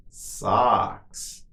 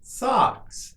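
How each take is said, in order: First: Drawn-out word for learners; slow model. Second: Much higher, shorter take; quicker model. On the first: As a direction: say it slowly and evenly for repetition. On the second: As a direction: say it quickly on a raised pitch. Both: Shown as a demonstration. Teacher models word for repetition.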